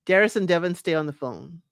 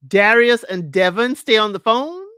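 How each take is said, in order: First: Said in the usual way. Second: Loud, emphatic rising question; punched words climbing into a question; incredulous question. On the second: Real, not acted. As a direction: repeat it in disbelief, swinging up at the end.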